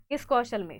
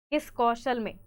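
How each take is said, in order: First: Kaushal stressed loud and falling; loud quizzing Kaushal; repeat the question. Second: किस pushed out loud with a falling tune; loud quizzing किस कौशल में; probing question. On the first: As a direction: nudge them on Kaushal. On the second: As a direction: press the class on किस. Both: Shown as a demonstration.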